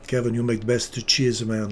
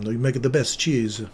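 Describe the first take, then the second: First: Mock Italian accent, cheese said as "cheese-a"; lightly hammed-up Italian praising Kevin's cheese; a hint of Italian, "cheese" stretched to "cheese-a". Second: Said in the usual way. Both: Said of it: "you have to be Italian in that one".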